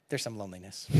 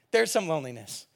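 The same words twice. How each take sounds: First: Quiet aside. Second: Said in the usual way. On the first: Shown as a demonstration.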